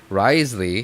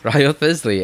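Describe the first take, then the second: First: The name is said as two short syllables. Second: The name is said as three syllables, spelled out. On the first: This is how the name is said officially. The speaker calls it right. "when I heard them say" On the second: This is how the name looks when read from the spelling. The speaker calls it wrong. "that's exactly wha- how I used to read his, read his name"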